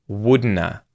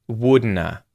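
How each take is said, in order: The two takes are said the same way.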